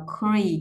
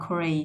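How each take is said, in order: First: Said in the usual way. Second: "cre" said on a falling tone; lowered tone. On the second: Shown as a demonstration. Teacher sounding out create, lowered tone on "cre". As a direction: drop the voice on "cre". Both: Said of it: "xuống giọng là cre".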